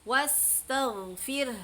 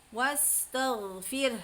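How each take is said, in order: No difference in how they are said.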